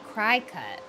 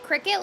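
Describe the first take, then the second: First: The first syllable sounds like 'cry'. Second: The first syllable sounds like 'crick'. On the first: "You say cry cut" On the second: "Do you not say it cricket like a bug?"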